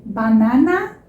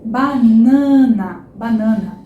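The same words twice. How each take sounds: First: Banana with every a open; wrong open a. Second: Banana slow, middle a nasal ã. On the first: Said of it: "é estranhíssimo". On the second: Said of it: "Quando o A vem antes de um N". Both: Shown as a demonstration.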